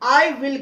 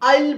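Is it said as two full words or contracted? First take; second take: full; contracted. First: Both words are said fully and separately. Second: The words are merged into one short syllable. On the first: "आई विल पूरा नहीं बोलते हैं" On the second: "आइल बोलते हैं"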